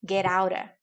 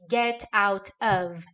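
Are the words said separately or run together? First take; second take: run together; separately. First: The words run together, sounding like get aura. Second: Each word is said separately and clearly. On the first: "Get com aura" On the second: "não criarás a expectativa de ouvir get out of"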